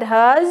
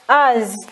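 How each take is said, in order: First: The word begins with an h sound. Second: The word begins directly with a vowel. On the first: The speaker calls it right. "You want to tell me the word has" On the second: The speaker calls it wrong. "you say as"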